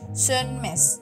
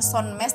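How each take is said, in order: First: The first vowel sounds like an 'e'. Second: The first vowel sounds like a plain 'o'. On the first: The speaker calls it right. "O titik dua itu nanti bacanya E" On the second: The speaker calls it wrong. "bukan Sönmez"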